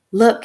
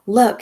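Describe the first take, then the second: First: Bellowing. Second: A raised yell, a little less high. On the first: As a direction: bellow it across the room. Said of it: "he bellowed". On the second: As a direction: yell it while shaking the sheet. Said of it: "he yelled". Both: Acted.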